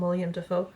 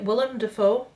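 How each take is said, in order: First: The first name is said as William. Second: The first name is said as Willem. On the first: The speaker calls it wrong. "I'm one of those people that calls him William Dafoe" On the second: The speaker calls it right. "I pronounced it correctly"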